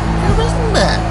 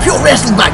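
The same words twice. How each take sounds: First: It is said flatly, without much energy. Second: It is said with lively, animated energy. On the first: "You're like" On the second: "Got some motion"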